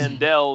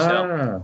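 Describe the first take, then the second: First: The middle consonant sounds like a D. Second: The middle consonant sounds like a T. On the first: This is how an actor said it in the film. The speaker calls it wrong. "he said Ord Mandel in the movie" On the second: This is how the script spelled it. The speaker calls it right. "but it's Ord Mantell"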